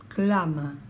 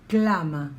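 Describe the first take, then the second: No difference in how they are said.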